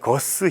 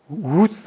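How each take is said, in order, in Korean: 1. Guus라는 이름은 딱딱한 g 소리로 시작합니다. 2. Guus라는 이름은 딱딱한 g 소리 없이 시작합니다. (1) "거스가 아니더라고요" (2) "이런 쪽에 가까운 발음"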